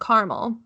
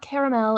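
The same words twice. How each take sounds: First: It has no middle vowel, two syllables. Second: It has an extra middle vowel, three syllables. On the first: The speaker calls it right. "that's how it's pronounced" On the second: The speaker calls it wrong. "It's not caramel"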